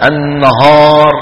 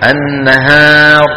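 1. الحركة الطويلة صوتها ثقيل وغامق. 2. الحركة الطويلة صوتها خفيف ورفيع. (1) "تفخيمها في محل الترقيق" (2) "بدل إيه النهار"

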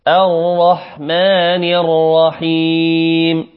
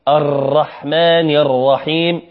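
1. الراء المشددة تُمَدّ بلا تكرار للضربات. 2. الراء المشددة تُكرَّر بضربات متتالية. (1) "لابد أن تخفي التكرار" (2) "نخطئها في حرف الراء المشددة تكرارها ... وهذا من الخطأ"

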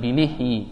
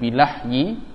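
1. Vokal setelah L adalah i. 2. Vokal setelah L adalah a. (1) "boleh juga di kasrah" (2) "Lamnya boleh di fathah"

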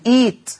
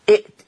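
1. تحل ياء مدّ طويلة محل الهمزة الثانية. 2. تُنطق همزة ثانية بعد الصوت الأول.

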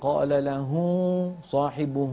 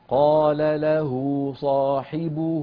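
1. الصوت يخرج من الأنف. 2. الصوت يخرج من الحلق، لا من الأنف. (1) "لا تضغط على أنفك، لا تقل" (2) "الهاء من هنا وليست من هنا"

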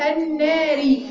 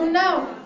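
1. تنتهي الكلمة بكسرة قصيرة 'i' بعد الراء. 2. تقف الكلمة على الراء دون حركة. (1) "لكن هنا الناري" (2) "لو وقفت عليها هتبقى برضو النار"

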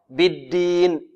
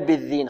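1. الصوت 'd' عادي. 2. الصوت 'dh' مرقق. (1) "بالدين دال" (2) "لا يقول بالدين، خطأ"

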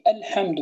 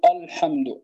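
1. تُنطق همزة الابتداء رقيقة وخفيفة. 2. تُنطق همزة الابتداء غليظة وثقيلة.

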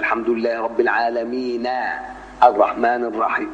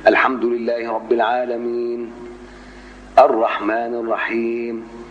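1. «العالمين» يتصل مباشرة بالكلمة التي بعده. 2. وقفة تامة مع أخذ نفس بعد «العالمين». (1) "طبعا الوصل بقى هيبقى" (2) "الوقفة هيبقى إيه؟"

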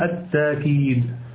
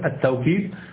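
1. تأتي ألف ممدودة بعده، دون همزة. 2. يأتي صوت الواو بعد المقطع الأول. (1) "بتسهيل الهمزة بدون أن تنطق بالهمزة" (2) "تقوله بالواوي"

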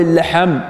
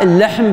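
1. يلحق صوت الحاء حركة الفتحة. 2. صوت الحاء لا تلحقه أي حركة.

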